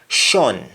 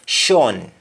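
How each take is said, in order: No difference in how they are said.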